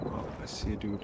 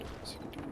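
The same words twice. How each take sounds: First: Said in the usual way. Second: Hushed whisper, breath only. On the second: Real, not acted. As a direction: whisper so the enemy can't hear. Spotting enemy in combat.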